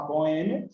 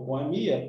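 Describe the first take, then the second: First: "boêmia" with the second syllable stressed, bo-Ê-mia. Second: "boemia" with the I stressed, bo-e-MI-a. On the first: Teacher explaining the tonic syllable, "boêmia" stressed on Ê. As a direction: put the weight on Ê in "boêmia". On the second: Teacher explaining the tonic syllable, "boemia" stressed on MI. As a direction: put the weight on MI in "boemia". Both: Shown as a demonstration. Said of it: "dupla pronúncia prosódica tem a ver com a sílaba tônica".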